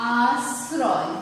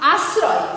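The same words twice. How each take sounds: First: আশ্রয় very slowly, first vowel and s held long; drawn-out pronunciation. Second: Said in the usual way. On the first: Shown as a demonstration. Teacher showing students how the word sounds, drawn-out pronunciation. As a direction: stretch আশ্রয় into two long parts. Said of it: "উচ্চারণ করছি কি?". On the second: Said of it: "যদি একটা শব্দ লিখি".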